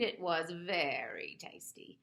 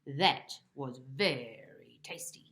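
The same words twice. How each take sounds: First: Slow, smug taunt; smug cat purring a tease. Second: Slow, low voiceless whisper; sly whispered gloat. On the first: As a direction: savour each word to tease. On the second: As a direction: whisper it back smugly. Bob mocking cat, whispered. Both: Acted.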